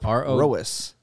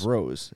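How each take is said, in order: First: The name is said as two syllables. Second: The name is said as one syllable. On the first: "they're dividing it here like it's two syllables" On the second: "I would Say it's Rose"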